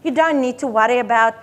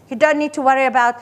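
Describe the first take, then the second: No difference in how they are said.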